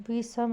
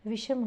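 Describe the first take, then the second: First: विषम said as "visam" with a plain s; wrong sibilant. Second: Said in the usual way. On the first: Shown as a demonstration. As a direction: swap sh for s in विषम. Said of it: "विषम नहीं होता". (विषम में "ष" की जगह "स") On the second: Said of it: "विषम होता है".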